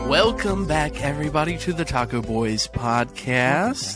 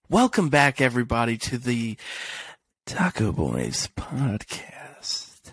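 First: It is said fast, rushed through. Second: It is said slowly, with dramatic pauses.

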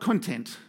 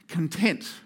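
First: The stress is on the first syllable. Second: The stress is on the second syllable. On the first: The speaker calls it wrong. "Not content" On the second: The speaker calls it right. "It's another Jesus attitude"

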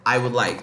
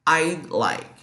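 First: The word would is said in full. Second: The word would is contracted to a d sound. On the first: "Se não, I would like" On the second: "De forma abreviada, a gente pronuncia I'd like"

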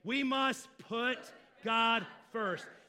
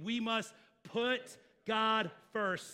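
First: It is said with strong conviction and enthusiasm. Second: It is said in a plain, calm way. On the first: "Say it with a little bit more conviction and enthusiasm" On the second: "Say that with me"

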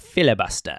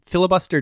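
First: The word is said in a British accent. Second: The word is said in an American accent. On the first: The speaker calls it right. "it needs to be said in a British accent" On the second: The speaker calls it wrong. "Filibuster doesn't do it justice"

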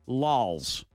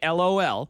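First: It is said as one single word. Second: It is spelled out as three separate letters. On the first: "Or would you say lols?" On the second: "would you say L-O-L?"

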